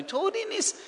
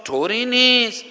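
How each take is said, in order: First: Put-on much higher and softer "طوری نیست", like calming a child; tender soothing. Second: Slow, higher reassuring "طوری نیست" stretched out; calming command. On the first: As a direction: coo "طوری نیست" softly up high. ("طوری نیست" با صدای زیر و نرم و نوازشگر) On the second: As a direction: tell yourself "طوری نیست" gently and slowly. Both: Shown as a demonstration. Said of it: "فرمانهای آرامش دهنده".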